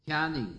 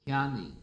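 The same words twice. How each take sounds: The two takes are said the same way.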